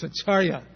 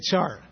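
First: The final syllable is pronounced. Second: The final syllable is dropped. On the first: The speaker calls it right. "It's Acharya" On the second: The speaker calls it wrong. "you can't say Achar"

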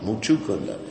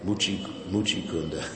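First: The first word ends in an 'oo' sound. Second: The first word ends in an 'ee' sound. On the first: It names the devotee. The speaker calls it right. "It's Muchu Kunda" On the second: It means a dirty lake. The speaker calls it wrong. "most of the devotees mispronounce that name"

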